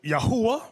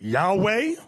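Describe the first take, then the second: First: The name has three syllables, middle one 'hu'. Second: The name has two syllables, no middle syllable. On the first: This is how another group says it. "Another group pronounce it Yahuwah" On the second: This is how some people say it. "you have some people pronounce it Yahweh"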